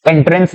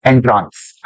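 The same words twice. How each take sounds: First: "एंट्रेंस" with an e vowel, en-trens; second syllable of "एंट्रेंस" rhymes with pens; usual entrance pronunciation. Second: "एंट्रांस" with a long aa, en-traans; second syllable of "एंट्रांस" opened to traans; spelling-aid pronunciation. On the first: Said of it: "एंट्रेंस ना बोलकर कह सकते हैं". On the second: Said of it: "उसको हम एंट्रेंस ना बोलकर कह सकते हैं". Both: Shown as a demonstration.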